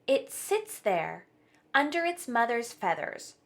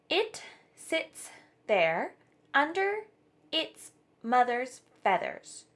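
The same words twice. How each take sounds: First: It is read in smooth grouped phrases. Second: It is read choppily, word by word.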